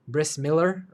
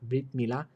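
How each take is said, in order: First: The first word ends in an s sound. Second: The first word ends in a t sound. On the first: This is the Yiddish pronunciation. "they say Bris" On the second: This is the Hebrew pronunciation. "instead of Brit Milah"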